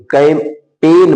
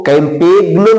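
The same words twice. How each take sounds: First: कैंपेन said slowly with no g sound; silent g. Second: कैंपेग्नो with the silent g wrongly sounded; wrong pronunciation. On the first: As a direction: say कैंपेन, going straight to the n. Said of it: "जी का कोई उच्चारण नहीं होगा". (कैंपेन, बिना ग की आवाज़ के) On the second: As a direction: say कैंपेग्नो, voicing a g before the n. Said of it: "कैंपेग्नो नहीं बोलेंगे". (कैंपेग्नो, ग की आवाज़ के साथ गलत उच्चारण) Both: Shown as a demonstration.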